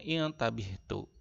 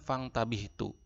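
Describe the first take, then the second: First: The opening hamza is pronounced as a vowel. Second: The opening hamza is dropped, linked to fa. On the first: "ketika di awal kalimat, maka dibacanya ing tabihtu" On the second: "maka dia tidak terbaca, bacanya fang tabihtu"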